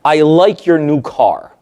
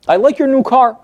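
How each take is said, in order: First: A slow, plain compliment meant kindly; just say it as a genuine nice remark; sincere compliment. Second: Higher, with a push on "your"; how the client hears the compliment, as a dig; loaded compliment. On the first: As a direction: brother admiring the new car, kindly meant. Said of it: "That's a brother complimenting my client". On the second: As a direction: lean on "your" so it sounds like a dig. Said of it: "that's not the way my client hears it". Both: Retold or imitated.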